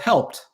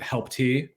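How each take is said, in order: First: It ends with a plain t sound. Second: It ends with a separate 'tee' syllable. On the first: The speaker calls it right. "it's just called helped" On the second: The speaker calls it wrong. "a lot of people see it spelled H E L P T and pronounce it help T"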